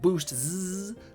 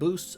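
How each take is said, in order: First: The name ends with a separate 'zee' syllable. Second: The name ends without a separate 'zee' syllable. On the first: "It has a Z at the end, so it could be like Boost Z" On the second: "I believe it's pronounced Boosts"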